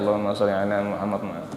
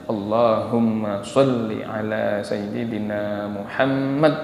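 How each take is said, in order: First: It is said casually, only with the lips. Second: It is said reverently, with deep feeling.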